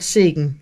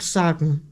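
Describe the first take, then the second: First: The first vowel is an E-like sound. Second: The first vowel is a plain open A sound. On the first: The speaker calls it right. "it's actually an E" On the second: The speaker calls it wrong. "not Sagen"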